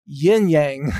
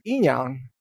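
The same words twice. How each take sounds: First: "yin yang" with "yang" rhyming with "twang"; anglicized "yin yang", flat a in "yang"; English pronunciation. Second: "yin yang" as "een yahng", no y at the start; Chinese pronunciation. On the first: Host giving the English example, anglicized "yin yang". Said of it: "in English, we pronounce it". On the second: Host correcting to Chinese, "yin yang" as "een yahng". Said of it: "that's actually pronounced". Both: Shown as a demonstration.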